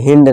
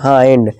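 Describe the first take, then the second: First: The vowel is a short 'i'. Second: The vowel is the diphthong 'eye'. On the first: The speaker calls it wrong. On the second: The speaker calls it right.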